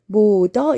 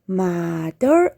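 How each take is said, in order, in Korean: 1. 첫 모음은 'oh' 소리가 납니다. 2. 첫 모음은 'ah' 소리가 납니다. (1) "mother 이렇게 읽지 않고" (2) "mother 이렇게 읽었던 것입니다"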